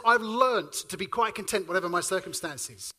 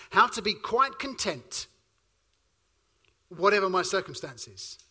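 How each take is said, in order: First: Said in the usual way. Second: Slow, weighty delivery with a long pause before whatever; slow emphatic reading. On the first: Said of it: "Paul says". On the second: Shown as a demonstration. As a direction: let each phrase of how to be quite content land slowly. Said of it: "Pause there for a moment".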